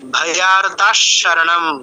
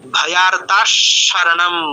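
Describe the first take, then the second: Both takes have the same delivery.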